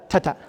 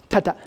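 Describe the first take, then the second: The two takes are said the same way.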